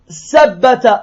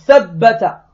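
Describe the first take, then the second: First: The word begins with an s sound. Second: The word begins with a th sound. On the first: It means may God cut your feet. The speaker calls it wrong. "Parce qu'elle n'arrivait pas à dire al-tha" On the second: It means may God make your feet firm. The speaker calls it right. "au lieu de dire thabbata"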